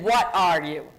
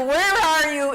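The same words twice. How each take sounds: First: "What" said lower, falling at the end; stressing what. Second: "Where" pushed higher and louder; stressing where. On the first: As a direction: drop the voice on "What" to set it against "Where". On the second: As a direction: lean hard on "Where" to set it against "What". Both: Shown as a demonstration. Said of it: "is different than".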